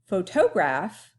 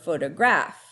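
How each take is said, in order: First: The stress is on the middle syllable. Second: The stress is on the last syllable. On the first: "on the toe" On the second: "or on the graph"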